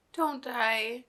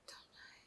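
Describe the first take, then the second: First: Said in the usual way. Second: Breathless unvoiced whisper; real whispered prayer; whispered plea. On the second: Real, not acted. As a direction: beg under your breath. Pleading as character is dying.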